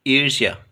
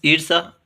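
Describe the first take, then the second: First: ईर्ष्या with a y glide before aa; y-glide variant. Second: ईर्षा with plain s, no y; s variant. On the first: Teacher repeating the correct option, ईर्ष्या with y glide. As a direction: say ईर्ष्या as "eer-shyaa". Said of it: "ईर्ष्या होगा". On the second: Teacher repeating a spelling option, ईर्षा with plain s. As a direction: say ईर्षा as "eer-saa". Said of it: "सही वर्तनी वाला शब्द कौन सा है". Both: Shown as a demonstration.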